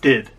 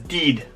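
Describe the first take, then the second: First: The vowel is a short i sound. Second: The vowel is a long ee sound. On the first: The speaker calls it right. "That short I, not did" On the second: The speaker calls it wrong. "he says did"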